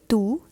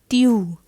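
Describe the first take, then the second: First: The vowel sounds like an English oo. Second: The vowel is a front rounded French u. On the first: The speaker calls it wrong. "this is not tu" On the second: The speaker calls it right. "this is tu. Like you have to pronounce this u differently"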